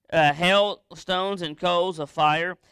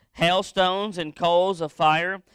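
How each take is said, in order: No difference in how they are said.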